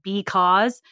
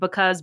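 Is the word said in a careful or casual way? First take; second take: careful; casual. First: The word is said in a careful, full way. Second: The word is said in a relaxed, reduced way. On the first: "not like because" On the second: "when I'm talking casually, I say like because"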